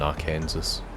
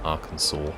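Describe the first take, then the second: First: It ends with a sounded s, like Kansas. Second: It ends without a sounded s. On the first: The speaker calls it right. "I generally prefer calling it Kansas and Arkansas" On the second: The speaker calls it wrong. "not Arkansas"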